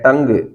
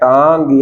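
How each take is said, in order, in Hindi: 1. यह स्वर एक छोटी केंद्रीय 'uh' ध्वनि है। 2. यह स्वर एक लंबी खुली 'aa' ध्वनि है। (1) "यह है टंग" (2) "कुछ बच्चे ऐसे बोलते हैं टांग"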